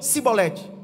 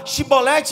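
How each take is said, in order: First: The word begins with an s sound. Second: The word begins with a sh sound. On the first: The accent gives away that the speaker is an outsider. The speaker calls it wrong. "eles diziam Cibolete" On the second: This is the correct form of the word. The speaker calls it right. "a forma correta é Chibolete"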